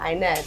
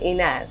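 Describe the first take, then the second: First: The name is said with an American pronunciation. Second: The name is said with an Arabic pronunciation. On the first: "I always say Inez in America" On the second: "it makes me want to say Inez ... Arabic way"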